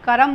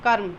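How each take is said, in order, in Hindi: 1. र और म के बीच एक स्वर बोला जाता है। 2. र सीधे म से जुड़ जाता है। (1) "नहीं" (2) "इसका उच्चारण होता है कै के बाद और मैं से पहले"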